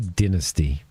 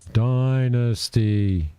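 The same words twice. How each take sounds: First: It uses the speaker's own local pronunciation of the word. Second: It uses the commenters' foreign pronunciation of the word. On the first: This is how people here say it. "over here we, we say Dynasty" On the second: This is how others insist it should be said. "It's pronounced Dynasty"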